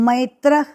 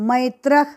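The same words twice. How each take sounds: No difference in how they are said.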